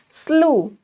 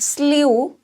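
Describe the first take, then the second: First: The vowel is a plain 'oo' sound. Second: The vowel is a 'yoo' sound. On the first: The speaker calls it right. "it is slew" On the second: The speaker calls it wrong. "This one is not slew"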